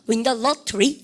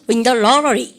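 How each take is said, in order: First: The t in lottery is a crisp t. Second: The t in lottery is a soft flap. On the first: "영국식으로 한번 해보세요" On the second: "미국식 해볼까요?"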